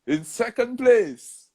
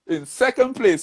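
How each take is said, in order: First: Higher and slow, drawing out the result; suspenseful announcer. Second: Higher announcer call, steady pace; mock announcer. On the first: Retold or imitated. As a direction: stretch "In second place" to build suspense. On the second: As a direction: call the place like an MC on stage. Announcer reading the results.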